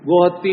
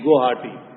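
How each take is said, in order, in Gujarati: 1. બેવડા 't' પહેલાં ટૂંકો સ્વર આવે છે. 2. એકલા 't' પહેલાં લાંબો સ્વર આવે છે. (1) "ગોહત્તી નહીં" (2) "પણ એનું નામ છે ગોહાટી"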